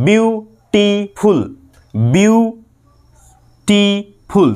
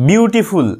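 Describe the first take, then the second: First: beautiful very slowly as বিউ, টি, ফুল, long pauses; three-part split. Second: Said in the usual way. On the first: Shown as a demonstration. Teacher counts three syllables, very slow broken beautiful. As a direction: stretch beautiful, stopping after each syllable. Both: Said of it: "তিনটে".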